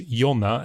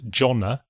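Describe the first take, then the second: First: The name is said with Swedish pronunciation. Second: The name is said with English pronunciation. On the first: The speaker calls it right. "so that people pronounce it correctly as Jonna" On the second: The speaker calls it wrong. "and not Jonna"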